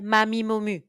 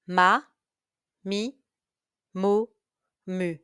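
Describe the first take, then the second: First: The syllables are said at a very fast pace. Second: The syllables are said at a fast pace. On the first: "Even faster" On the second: "Faster now"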